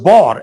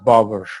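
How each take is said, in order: First: The word is said as one syllable. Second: The word is said as two syllables. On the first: This is how it was said in older times. "It was monosyllabic word" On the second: This is how it is said today. "nowadays we pronounce it as flower, as bower"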